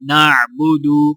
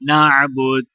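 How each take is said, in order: First: The word ends with a short u vowel. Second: The word ends on a bare d consonant. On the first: "दाल पेश दू" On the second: "आगे वक्फ"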